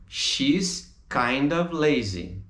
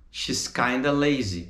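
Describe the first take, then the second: First: Kind of said as two slow clear words; full kind of. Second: Kinda run together as one word; reduced kinda. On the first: Teacher contrasts full kind of with reduced kinda. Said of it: "Lembra o kind of? Vira kinda". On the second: Teacher shows the relaxed native form kinda. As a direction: blend kind of into kinda. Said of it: "Vira kinda". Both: Shown as a demonstration.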